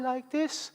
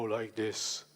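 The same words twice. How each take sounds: First: The voice is pitched very high. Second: The voice is pitched very low. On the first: "you can talk very high like this" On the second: "or very low like this"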